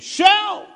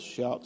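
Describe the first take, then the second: First: The word is said loudly, with force. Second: The word is said softly, without force. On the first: The words are said with conviction and passion. The speaker calls it right. "Have some conviction and passion" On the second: The words are said without real conviction. The speaker calls it wrong. "do you shout like this?"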